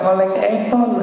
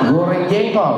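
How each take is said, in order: First: Sounds are dropped in a childish lisping voice. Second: Every sound is pronounced clearly and normally.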